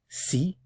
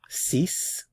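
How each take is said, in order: First: The word ends on the vowel, with no consonant. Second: The word ends with a clear s sound. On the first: The number comes before a word starting with a consonant. "before a consonant" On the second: The number is said on its own when counting. "If it's just a number that you're counting"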